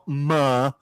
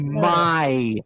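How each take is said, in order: First: The vowel is a plain open 'ah'. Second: The vowel glides like in 'eye'. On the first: The speaker calls it wrong. "not ma" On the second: The speaker calls it right. "I can say my"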